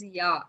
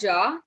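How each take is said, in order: First: The word begins with a Y sound. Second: The word begins with an English J sound. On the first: The speaker calls it right. "it is ya" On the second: The speaker calls it wrong. "people do this mistake a lot that they pronounce this uh, word as ja"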